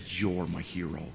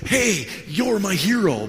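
First: Low, soft, slow affirmation; heartfelt sincerity. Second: High, loud, drawn-out acclaim; showy cheering. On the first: Pastor honors the humble church planter, heartfelt. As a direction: say it quietly and tenderly. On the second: Pastor imagines praising planter before the boaster, showy. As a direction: proclaim it for all to hear. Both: Retold or imitated.

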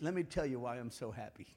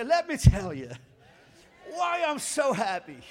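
First: Said in the usual way. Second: Loud, projected congregational prompt. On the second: Shown as a demonstration. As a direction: belt it out for everyone to repeat. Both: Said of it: "say it out loud with me".

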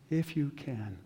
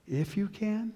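First: Said in the usual way. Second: Questioning echo. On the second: Acted. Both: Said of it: "Jesus does something strange".

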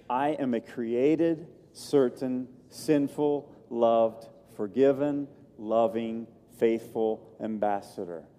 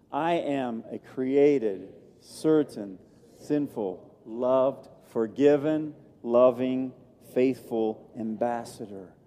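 First: Said in the usual way. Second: Slow, deliberate, every word weighed; slow and firm declaration; with conviction. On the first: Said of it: "That was marginally good". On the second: Shown as a demonstration. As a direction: read it like you truly believe it. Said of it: "read it with conviction".

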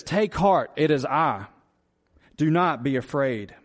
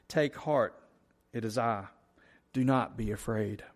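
First: Words of grace. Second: Quiet scripture reading. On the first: Acted. Preacher voicing Jesus calming his disciples, reassuring. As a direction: speak it as gentle grace to frightened men. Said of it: "He immediately speaks words of grace". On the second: Shown as a demonstration. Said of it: "I'm gonna read verse fifty again".

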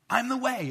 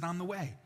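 First: I'm the way, shouted high and loud; a preacher's ringing declaration; emphatic loud repeat. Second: Said in the usual way. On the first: Shown as a demonstration. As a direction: proclaim "I'm the way" with full force. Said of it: "is what he said". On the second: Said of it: "I'm the way" is what he said".

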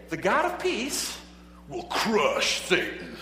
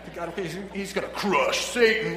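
First: Booming slow announcer voice; monster truck ad. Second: A hint of booming announcer; lightly hyped monster truck promo. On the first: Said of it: "You gotta say it with that, you know, monster truck voice". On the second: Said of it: "monster truck voice". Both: Shown as a demonstration.

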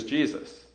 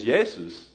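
First: Said in the usual way. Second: "Jesus" said as YAY-soos; Greek pronunciation. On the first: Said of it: "to say that in English". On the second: Shown as a demonstration. Pastor corrects the English name, saying "Jesus" in Greek as YAY-soos. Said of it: "correct pronunciation is".

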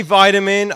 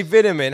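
First: VITAMIN with a long "eye", VY-ta-min; loud American "VY-tamin". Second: VITAMIN with a short i, VIT-a-min; British "VIT-amin". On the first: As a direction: say vitamin so it opens like "vie". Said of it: "You say vitamin". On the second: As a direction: say vitamin so it opens like "bit". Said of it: "I say vitamin". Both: Shown as a demonstration.

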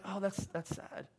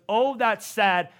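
First: Soft, slow, hollow pity; a passing sigh of pity that goes nowhere; softer and slower, a sad shrug of a sigh; empty sympathy. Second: Slow, firm, resolved sadness; louder and slower, sadness turning into resolve; moved to act. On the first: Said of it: "I don't want an emotional". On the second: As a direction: say it like it compels you to do something. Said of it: "I want something inside of you that goes". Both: Shown as a demonstration.

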